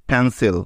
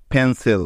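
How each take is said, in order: Both takes have the same delivery.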